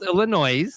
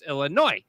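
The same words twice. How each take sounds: First: "Illinois" with its final S voiced like "noise"; wrong Illinois, S sounded. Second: "Illinois" ending in "noy"; Illinois, silent S. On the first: Correcting the co-host's teasing, "Illinois" with a sounded S. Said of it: "No, it's not called Illinois". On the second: Correcting how tourists say it, "Illinois" with silent S. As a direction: say "Illinois" with no S at the end. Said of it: "The S is silent". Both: Shown as a demonstration.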